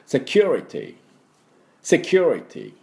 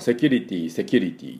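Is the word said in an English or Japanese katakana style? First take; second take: English; Japanese. First: It is said English-style with stress on 'cu'. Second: It is said with flat Japanese katakana syllables. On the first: The speaker calls it right. "実際の発音は" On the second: The speaker calls it wrong. "私たち普段使っておりますし、言い慣れておりますが、この発音がちょっと違う"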